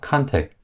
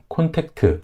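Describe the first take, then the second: First: The word is said with two syllables. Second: The word is said with three syllables. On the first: The speaker calls it right. "이 음절입니다" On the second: The speaker calls it wrong. "삼음절이 아니라"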